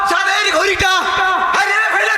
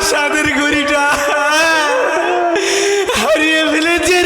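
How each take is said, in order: First: The line is said in a harsh, angry voice. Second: The line is said while weeping and wailing. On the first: The loss is an outrage. "রাগ রাগ করে দেখা।" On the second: The loss is a tragedy. "এত কান্নাকাটির দরকার আছে?"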